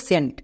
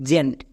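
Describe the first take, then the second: First: সেন্ট starting with a hissed "s", sent; wrong "s" pronunciation. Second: জেন্ট starting with a voiced j/z, zent; correct "j/z" pronunciation. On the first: Teacher showing the common mistake, সেন্ট with an "s" sound. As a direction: say সেন্ট with an unvoiced s. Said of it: "এখানে সবাই ভুল করে". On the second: Teacher correcting students, জেন্ট with the voiced j sound. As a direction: say জেন্ট with a buzzing first consonant. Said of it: "এর উচ্চারণ হবে জেন্ট". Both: Shown as a demonstration.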